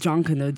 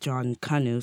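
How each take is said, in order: First: It does not sound like 'John Canoe'. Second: It sounds like the words 'John Canoe'. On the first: This is how it is said in the Bahamas. "So within the Bahamas, it's pronounced like that" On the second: This is how it is said in Jamaica. "It's pronounced like John Canoe, so the name John and then Canoe"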